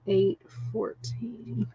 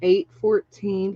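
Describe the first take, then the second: First: Softer, slow murmured repeat of Eight fourteen. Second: Said in the usual way. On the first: Real, not acted. Rereading a viewer's guess to herself, soft and slow. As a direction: murmur the number back to herself.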